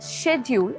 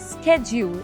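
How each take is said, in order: First: The word begins with an 'sh' sound. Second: The word begins with an 'sk' sound. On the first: This is the British pronunciation. "ബ്രിട്ടീഷുകാർ പറയുന്നത് ഷെഡ്യൂൾ" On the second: This is the American pronunciation. "അമേരിക്കക്കാർ പറയുന്നത് സ്കെഡ്യൂൾ"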